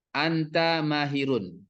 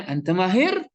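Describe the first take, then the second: First: "anta mahirun" slow and level, no rise at the end; level statement intonation. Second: "anta mahir" high, climbing sharply on "mahir"; raised calling intonation. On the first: Teacher shows a full-stop sentence, level intonation on "anta mahirun". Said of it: "intonasinya itu datar". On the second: Teacher shows an exclamation meant as denial, raised rising "anta mahir". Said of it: "Naik dia". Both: Shown as a demonstration.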